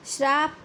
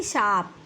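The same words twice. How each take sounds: First: श्राप opening on "shr"; extra r. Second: शाप with a simple opening sibilant; correct, no r. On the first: Teacher citing the error, श्राप with added r. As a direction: say श्राप with an r after the sibilant. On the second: Teacher correcting the error, शाप without r. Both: Shown as a demonstration. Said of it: "नहीं बल्कि".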